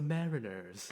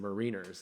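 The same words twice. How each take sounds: First: The stress is first, with a short second vowel. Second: It sounds like 'Marines' with a long 'ee'. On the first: The speaker calls it right. "but no, it's the Mariners" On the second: The speaker calls it wrong. "that should be pronounced the Mariners"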